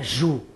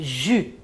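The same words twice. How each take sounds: First: The vowel is a plain back 'oo' sound. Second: The vowel is said with tightly pursed lips. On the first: The speaker calls it wrong. "Não, não é ju" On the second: The speaker calls it right. "é ju. Tem que fazer esse movimento com a boca"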